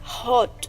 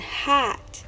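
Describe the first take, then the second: First: It is said with a British accent. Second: It is said with an American accent. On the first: "In British accent would sound like car and hot" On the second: "in American accent would sound like car and hat"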